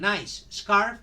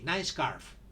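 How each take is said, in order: First: Both S sounds are pronounced separately. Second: The two S sounds merge into one. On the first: The speaker calls it wrong. "Instead of saying" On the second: The speaker calls it right. "Only S is pronounced only one"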